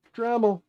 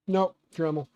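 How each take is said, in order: First: Higher, louder "Dremel" burst; excited exclamation. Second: Said in the usual way. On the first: Real, not acted. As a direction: shout it like the answer.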